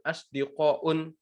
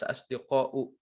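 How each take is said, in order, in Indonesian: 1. Kata ini berakhir dengan bunyi 'n'. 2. Kata ini berakhir dengan vokal, tanpa 'n'. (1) "nggak boleh kita bilang asdiqaun" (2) "harus asdiqau"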